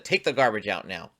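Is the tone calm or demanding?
demanding. The request is said in a harsh, demanding tone. It is an angry order. The speaker calls it wrong. "It doesn't have to be"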